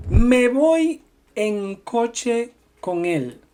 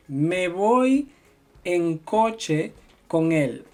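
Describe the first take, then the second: First: Me voy en coche con él spoken slowly with él stressed; slow model sentence. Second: Said in the usual way. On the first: Shown as a demonstration. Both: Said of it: "Por ejemplo".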